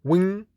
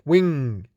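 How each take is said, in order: First: Wing with a rising pitch, like a list item; rising tune. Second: Wing with a falling pitch to close; falling tune. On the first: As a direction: lift the end of wing upward. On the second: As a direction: let wing drop at the end. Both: Shown as a demonstration.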